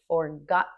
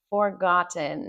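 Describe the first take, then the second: First: The T is a catch in the throat. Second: The T in the middle is clearly released. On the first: This is how native speakers often say it. "they stop the air of that T way back in the mouth" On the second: This is the form taught in school. "that's how you would learn it in school"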